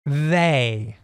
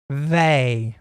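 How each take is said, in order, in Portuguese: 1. O primeiro som é um th suave. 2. O primeiro som é um th suave.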